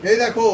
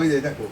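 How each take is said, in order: First: Said in the usual way. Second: "এই যে দেখো" dropped much lower, falling; lower retake. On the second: Shown as a demonstration. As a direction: say "এই যে দেখো" low and settled. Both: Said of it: "আমি একটু দেখাও ভালো করে".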